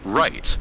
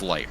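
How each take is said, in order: First: The name begins with an R sound. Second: The name begins with an L sound. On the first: This is how the name comes out in Japanese. "So you would pronounce his name as right" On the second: This is the character's real name. "Snake's real name is Light"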